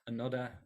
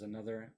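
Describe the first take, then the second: First: The middle consonant is a d sound. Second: The middle consonant is a th sound.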